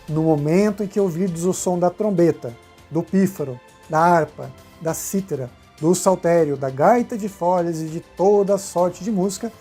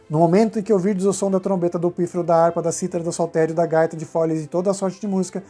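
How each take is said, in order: First: It is read slowly. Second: It is read quickly.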